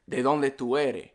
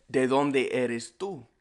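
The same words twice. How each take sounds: First: "eres" said without its final S; Caribbean ending, "eres" as ere; Caribbean Spanish. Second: Said in the usual way. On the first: Shown as a demonstration. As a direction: drop the S so "eres" becomes ere. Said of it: "in Caribbean Spanish, we like to mix it up". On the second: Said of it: "what you'll learn in school".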